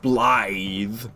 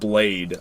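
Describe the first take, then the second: First: It rhymes with 'scythe', ending in a 'th' sound. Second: It rhymes with 'made', ending in a 'd' sound. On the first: The name is read as it is in its original language. The speaker calls it right. "I know it's Blythe because it's Welsh" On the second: The name is read as an English speaker would spell it. The speaker calls it wrong. "I just want to call him Blade out of out of spite"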